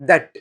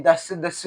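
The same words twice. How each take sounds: First: "that" cut off on a hard t; correct "that". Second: "thus" slowly, ending in s instead of t; slow, wrong "thus" for "that"; mispronounced "that". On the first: Teacher giving students the right word, correctly pronounced "that". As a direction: say "that" with a final t, no s. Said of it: "ఈ thus, thus కాదు". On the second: Teacher rejecting the common mistake, mispronounced "thus". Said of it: "thus కాదు". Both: Shown as a demonstration.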